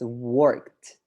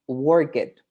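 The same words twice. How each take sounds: First: The -ed ending is a t sound. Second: The -ed ending is an extra syllable. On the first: The speaker calls it right. "most of the time they sound like a t or d" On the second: The speaker calls it wrong. "So this is not worked. Mm-mm"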